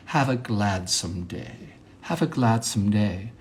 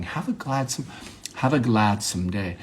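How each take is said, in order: First: Slow, softened affected delivery. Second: Said in the usual way. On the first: Shown as a demonstration. Monologist showing an affected way to say goodbye, mannered and slow. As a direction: draw it out with put-on refinement. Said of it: "affected way of saying that". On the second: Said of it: "an affected way of saying that".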